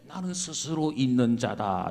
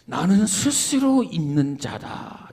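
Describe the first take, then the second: First: It is said in a clear, bright voice. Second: It is said in a huge, booming voice.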